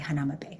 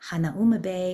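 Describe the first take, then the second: First: The name is said the casual, relaxed way. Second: The name is said the careful local way. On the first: This is how the speaker personally says the name. "but I say" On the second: This is the proper pronunciation of the name. "if you're saying it correctly"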